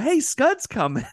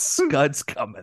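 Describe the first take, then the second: First: It is said in a light, casual way. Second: It is said in a harsh, menacing way.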